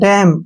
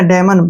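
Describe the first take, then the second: First: The final n sound is left silent. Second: The final n sound is pronounced. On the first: The speaker calls it right. "साइलेंट रखना है" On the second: The speaker calls it wrong. "बिल्कुल नहीं पढ़ना हमने"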